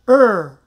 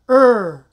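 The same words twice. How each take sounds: Both takes have the same delivery.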